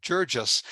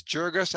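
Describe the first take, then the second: First: Jurgis with a soft G, like a J. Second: Jurgis with a hard G, as in "go". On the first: Author shows host the second pronunciation, soft-G Jurgis. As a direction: say Jurgis as JUR-jus, soft G. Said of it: "Jurgis with a soft G". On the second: Author shows host the first of two pronunciations, hard-G Jurgis. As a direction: say Jurgis as JUR-gus, hard G. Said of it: "I've heard it pronounced two ways". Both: Shown as a demonstration.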